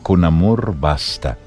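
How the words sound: It is said as a statement, falling.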